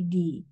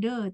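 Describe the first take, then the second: First: The word ends in an 'ee' vowel. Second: The word ends in an 'uh' vowel. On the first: The speaker calls it right. "tapi di" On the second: The speaker calls it wrong. "kalau hurufnya huruf uh, vokal, kita bacanya de ini bukan de"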